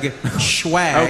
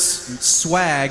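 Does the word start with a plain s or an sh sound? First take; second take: sh; plain s. First: The word begins with an sh sound. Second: The word begins with a plain s sound. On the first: The speaker calls it wrong. "You don't pronounce swag, schwag" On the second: The speaker calls it right. "You don't pronounce swag"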